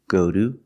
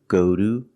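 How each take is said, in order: The two takes are said the same way.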